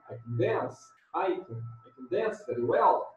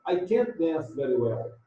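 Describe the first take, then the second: First: Weak "can", weight on "dance", "well" lifting; affirmative unstressed can. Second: "can't" stressed, sentence falling after it; negative stressed can't. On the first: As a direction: slip over "can" to "dance". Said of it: "se esta frase aqui fosse afirmativa". (afirmativa, "can" átono) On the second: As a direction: land firmly on "can't", T barely there. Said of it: "A negativa". (negativa, ênfase em "can't") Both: Shown as a demonstration.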